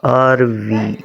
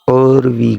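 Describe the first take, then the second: First: The word 'are' is said in full. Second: The word 'are' is reduced to an 'or' sound. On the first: "Actually, this word pronounced are we" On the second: "but she pronounced this time. ... Letter A sound O O"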